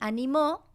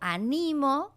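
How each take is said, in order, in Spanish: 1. La tónica está en la última sílaba. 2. La tónica está en la segunda sílaba. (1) "tiene el acento, este sí escrito, en la última sílaba" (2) "que tiene el acento en la segunda sílaba"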